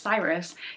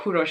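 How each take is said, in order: First: The name is said in the American form, Cyrus. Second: The name is said in the Persian form, Kurosh. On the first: "the American pronunciation of his name" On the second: "if you really want to go the Persian way"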